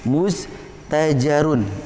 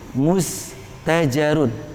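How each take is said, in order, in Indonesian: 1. Kata ini berakhir dengan konsonan mati. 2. Kata ini berakhir dengan akhiran '-un' penuh. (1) "maka dibaca sukun" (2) "huruf terakhir ro harokatnya domatain"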